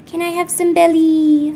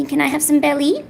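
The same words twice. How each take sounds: First: High, loud, sing-song begging; wheedling pet talk. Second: Said in the usual way. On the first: Real, not acted. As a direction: wheedle the pet, holding the last word long.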